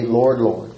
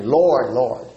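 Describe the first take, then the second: First: Said in the usual way. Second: "Lord, Lord" said with mild emphasis; emphatic LORD. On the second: Shown as a demonstration. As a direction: put gentle weight on each "Lord". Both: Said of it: "Say it emphatically".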